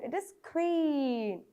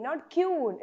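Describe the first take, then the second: First: "queen" said slowly with a clear kw start; correct queen. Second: "queen" said with a plain k-you start, the wrong way. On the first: Teacher shows children the right way, slow and careful. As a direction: stretch "queen" out slowly, kw sound. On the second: Teacher shows children the wrong way, plain. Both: Shown as a demonstration.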